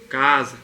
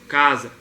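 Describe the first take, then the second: No difference in how they are said.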